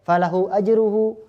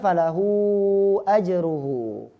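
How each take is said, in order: First: The vowel before ajruhu is held briefly. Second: The vowel before ajruhu is drawn out longer. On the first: "baca pendek"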